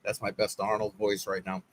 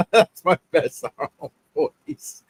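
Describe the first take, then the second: First: Said in the usual way. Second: Slow, a hint of a muscleman action hero; lightly done Arnold voice. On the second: Shown as a demonstration. Streamer to his chat, slow light Arnold impression. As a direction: drag the words out like a film tough guy.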